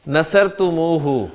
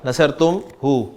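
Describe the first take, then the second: First: It flows with a 'u' vowel after 'tum'. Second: It breaks with a pause after 'tum'. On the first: The speaker calls it right. "इसको मोड़ देता है और तुमू कह देता है" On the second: The speaker calls it wrong. "ये मैं बीच में तुम पे रुक गया"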